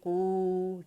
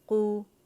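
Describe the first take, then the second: First: The vowel is held long, for two counts. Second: The vowel is kept short, for one count. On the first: It becomes a long vowel instead of a short one. The speaker calls it wrong. "हम इस तरह नहीं कह सकते" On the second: It is the short vowel intended. The speaker calls it right. "कू को हाफ करें तो हमारे पास दम्मा की आवाज़ आती है"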